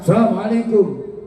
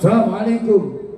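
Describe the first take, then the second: First: It is said at a high pitch. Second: The same.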